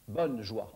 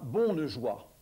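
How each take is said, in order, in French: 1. La première voyelle est orale et le e final est muet. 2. La première voyelle est nasale et le e se prononce. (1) "plus tard, en français moyen" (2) "le on va perdre sa nasalité"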